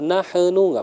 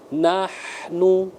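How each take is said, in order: First: The word is rushed and cut off abruptly. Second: The word flows smoothly without being rushed. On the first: The speaker calls it wrong. "kalau buru-buru nanti dia terpatok. Nahnu nggak boleh" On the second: The speaker calls it right. "Biarkan dia ngalir dulu ya"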